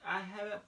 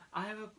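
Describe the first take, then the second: No difference in how they are said.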